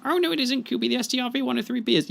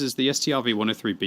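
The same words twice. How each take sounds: First: High, fast mock voice; mock correction. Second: Said in the usual way. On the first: Correcting his own claim to Kubi, squeaky know-it-all voice. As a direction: jump in like a know-it-all heckler.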